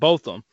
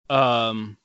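First: The first syllable sounds like 'both'. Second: The first syllable rhymes with 'goth'. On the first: The speaker calls it right. "it's pronounced Botham" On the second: The speaker calls it wrong. "I pronounced it as like, Botham, and I don't know why in my Gotham"

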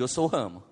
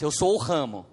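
First: It is said at normal, softer volume. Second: It is said louder and more forcefully.

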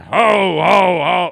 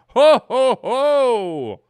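First: It sounds angry. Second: It sounds awed and surprised. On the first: The speaker is annoyed. "what if he's angry?" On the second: The speaker was caught off guard. "a little bit of awe and surprise"

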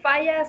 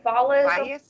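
First: The double L is said as a Y sound. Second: The double L is said as an L sound. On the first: The name is read as Spanish. "the double L is pronounced like a Y" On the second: The name is read as English. "why would the first one be in English"

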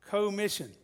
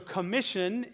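First: The first syllable 'co' is set apart clearly. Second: The first syllable is short and blended in. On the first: The mission is shared as a partnership. "I thought you might could pronounce it co-mission" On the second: A task or authority is given to someone. "so commission is the word"

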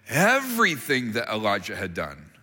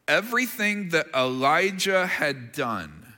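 First: The phrase is read with strong emphasis on everything. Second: The phrase is read plainly without special emphasis. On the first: It was a remarkable, dramatic report. "here's how I read it" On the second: It is only a routine report. "that doesn't seem like a big deal"

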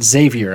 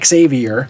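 First: The name does not start with an 'ex' sound. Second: The name starts with an 'ex' sound. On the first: The speaker calls it wrong. "it turns out I did say it wrong. I said Xavier" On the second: The speaker calls it right. "It's Xavier. And he said that it's like pronouncing the first three letters, X-A-V, and then R"

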